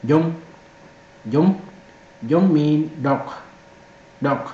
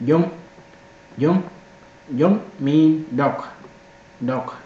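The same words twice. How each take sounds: The two takes are said the same way.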